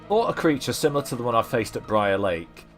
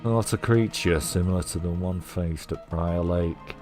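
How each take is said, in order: First: It is read in his normal voice. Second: It is read in a Mulder-like voice.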